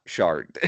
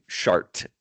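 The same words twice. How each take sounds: First: "shart" said as "shard", ending on D. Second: "shart" ending on a crisp T. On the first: Contrasting the building's name, "shart" said as "shard". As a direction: soften the final T of "shart" to a D. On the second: Pierre learning the word shart, "shart" ending in T. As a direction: say "shart" with a hard final T. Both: Shown as a demonstration. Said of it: "learning shart is not shart".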